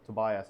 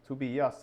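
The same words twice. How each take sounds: First: The name is pronounced with American English sounds. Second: The name is pronounced with Swedish sounds. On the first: "as you call it in American English" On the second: "in Swedish"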